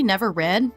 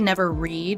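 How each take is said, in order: First: The word read rhymes with bed. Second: The word read rhymes with need. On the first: It is the past tense. "they were never read" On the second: It is the present tense. "in the present tense"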